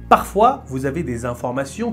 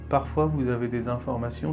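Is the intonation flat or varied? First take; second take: varied; flat. First: The pitch moves up and down expressively. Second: The pitch stays flat and monotonous throughout. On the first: Some information is highlighted as more important. The speaker calls it right. "J'ai varié mon intonation" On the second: Nothing is highlighted, which bores the listener. The speaker calls it wrong. "Si vous parlez comme ça à l'examen, vous êtes mort"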